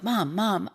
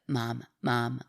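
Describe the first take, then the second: First: The words are said with lively, varied pitch. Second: The words are said in a flat monotone. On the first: "it's not like" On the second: "like monotone"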